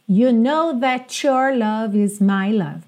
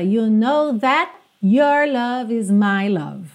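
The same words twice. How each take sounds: First: The t of 'that' runs into 'your'. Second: The t of 'that' is a clear stop. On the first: "seria possível ligar that com your, that's your" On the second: "Ela canta dando uma fechada mesmo no that, esse T consoante oclusiva, encerrando a palavra"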